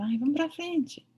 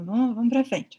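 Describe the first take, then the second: First: Higher, slower "Ai, vamos pra frente" urging oneself on; coaxing own brain. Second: Said in the usual way. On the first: Retold or imitated. Vet urging her own brain to move on, slow and higher. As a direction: talk yourself into moving on, slowly and higher. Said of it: "Eu faço assim com o meu cérebro". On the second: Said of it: "Ele fala".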